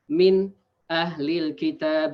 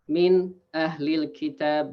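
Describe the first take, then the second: First: There is a short break inside the phrase. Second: The same.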